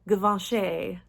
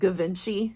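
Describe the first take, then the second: First: The name is said in a refined, luxury way. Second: The name is said in a plain, everyday way. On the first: The speaker calls it right. "but it's Givenchy" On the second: The speaker calls it wrong. "I've always said Givenchy"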